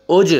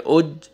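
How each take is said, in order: First: اج with a bouncing double sound on the ج; qalqalah. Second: اج with the ج closed flat, no echo; wrong reading. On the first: Teacher shows pupils the right way: اج with an echoing ج. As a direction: let the ج of اج echo out. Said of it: "double sound آئے گا". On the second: Teacher shows pupils the wrong way: اج with a dead ج. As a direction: stop the ج of اج dead. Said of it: "ایسے نہیں پڑھیں گے". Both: Shown as a demonstration.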